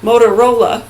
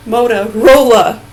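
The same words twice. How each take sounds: First: Said in the usual way. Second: "Motorola" said slowly, each syllable spelled out and a bit louder; careful try. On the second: Shown as a demonstration. Testing whether he can say the brand name, said slowly and carefully. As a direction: sound out "Motorola" slowly and firmly. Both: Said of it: "if I can even say it".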